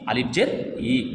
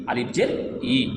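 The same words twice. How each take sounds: The two takes are said the same way.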